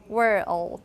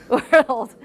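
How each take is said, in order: First: An extra 'all' vowel is inserted before the L. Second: The L is a dark L with no extra vowel.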